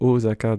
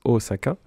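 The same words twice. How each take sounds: First: The middle consonant is a z sound. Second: The middle consonant is an s sound. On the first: This is how it is said in the series. The speaker calls it wrong. "qu'on entende beaucoup prononcer Osaka dans euh, la série" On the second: This is the usual pronunciation. The speaker calls it right. "on prononce Osaka"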